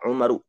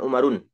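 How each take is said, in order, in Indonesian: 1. Kata ini berakhir pada vokal tanpa n. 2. Kata ini berakhir dengan bunyi n tambahan.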